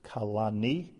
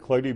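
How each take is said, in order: First: The word has three syllables, starting with ka. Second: The word has two syllables, starting with kl. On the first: This is the pronunciation given by the commentary. The speaker calls it right. "the correct way to pronounce this is kalani" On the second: This is the common yeshiva pronunciation. The speaker calls it wrong. "in yeshivas they say Kloni be Roshi"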